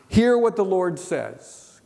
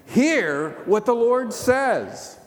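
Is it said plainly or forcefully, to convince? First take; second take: plainly; forcefully. First: It is said plainly, without special force. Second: It is said forcefully, as if convincing someone.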